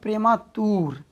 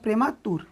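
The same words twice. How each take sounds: First: The vowel in the last syllable is drawn out long. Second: The vowel in the last syllable is short. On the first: The speaker calls it wrong. "नहीं कि पढ़ेंगे" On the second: The speaker calls it right. "ऐसे पढ़ेंगे"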